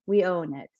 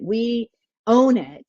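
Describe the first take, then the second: First: Quiet, settled repeat of own it; softer echo. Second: Slow, firm emphasis on own; emphatic. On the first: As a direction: let it land softly. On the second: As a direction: press the word own slowly. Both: Shown as a demonstration.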